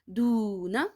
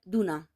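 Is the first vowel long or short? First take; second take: long; short. First: The first vowel is stretched long. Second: The first vowel is short. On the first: The speaker calls it right. "I have to stress the sound of do" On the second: The speaker calls it wrong. "if there was no wow sucking, then I should have said Duna"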